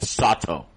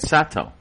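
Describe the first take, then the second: First: The name rhymes with 'Otto'. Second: The name does not rhyme with 'Otto'. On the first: The speaker calls it right. "it's supposed to be like Otto, like Sato" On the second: The speaker calls it wrong. "I've been pr- pr- pronouncing it Sato"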